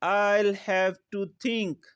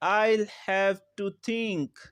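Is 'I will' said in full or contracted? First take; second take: contracted; contracted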